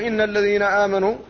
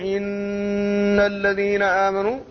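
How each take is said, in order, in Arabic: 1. الغنة على النون تُقطع وتُختصر. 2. الغنة على النون تُمدّ وتُطال. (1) "لم يأتي بحق هذا الحرف وهو الغنة" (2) "زاد في حق الحرف فجعله بمثابة المد"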